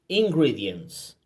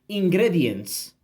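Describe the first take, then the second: First: The vowels are read with English vowel sounds. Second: The vowels are read with Spanish vowel sounds. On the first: The speaker calls it right. "So I confirm the pronunciation" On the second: The speaker calls it wrong. "In Spanish, you might read ingredients, but of course, we know that that's not correct"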